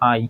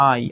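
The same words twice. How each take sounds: First: The vowel is short and clipped. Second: The same.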